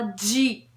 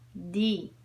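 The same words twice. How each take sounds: First: The letter starts with a soft j-like sound. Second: The letter starts with a plain hard d sound. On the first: The speaker calls it wrong. "o D em português a gente fala D" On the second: The speaker calls it right. "Em inglês, o D é D"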